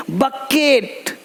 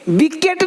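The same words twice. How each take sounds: First: Very slow "बकेट", first syllable buh; bucket read by sound. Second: Higher "विकेट" with bee as first syllable; bucket misread with bee. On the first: Teacher giving the correct word after the wrong one, drawn-out "बकेट". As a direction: stretch "बकेट" out as buh-ket. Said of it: "बी सी नहीं". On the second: Teacher showing what not to say, higher bee-ket for "विकेट". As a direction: say "विकेट" as bee-ket, using the letter name. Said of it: "नहीं बोलते". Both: Shown as a demonstration.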